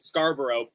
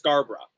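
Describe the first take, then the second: First: It is said the Canadian way. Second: It is said the English way. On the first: This is how the Toronto borough's name is said locally. "we pronounce it Scarborough" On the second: This is how the English town's name is said. "the English city that would be pronounced Scarborough"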